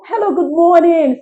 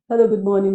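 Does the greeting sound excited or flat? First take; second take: excited; flat. First: The greeting is said in a happy, excited tone. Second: The greeting is said in a flat, ordinary tone. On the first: The caller is genuinely welcome and valued. The speaker calls it right. "It's different from" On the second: The caller is merely being processed routinely. The speaker calls it wrong. "just normal"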